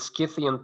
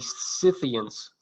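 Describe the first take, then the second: First: It is pronounced the original Greek way. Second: It is pronounced the British way. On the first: "I prefer the Scythian pronunciation since it's the Greek, the original pronunciation" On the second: "In Britain, you may hear people say"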